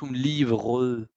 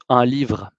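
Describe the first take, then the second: First: The final e of livre is pronounced. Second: The final e of livre is silent. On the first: The speaker calls it wrong. "no decimos un livre" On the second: The speaker calls it right. "decimos un livre"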